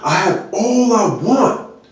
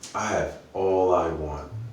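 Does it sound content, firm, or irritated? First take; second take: irritated; content. First: It sounds upset and irritated. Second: It sounds happy and content.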